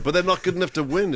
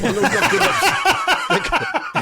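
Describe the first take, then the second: First: Said in the usual way. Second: Drawn out high and slow through a laugh; laughing drawl. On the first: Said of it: "is the point". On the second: Real, not acted. Laughing back at his mate's teasing, slow and high. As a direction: laugh it out, stretching every word.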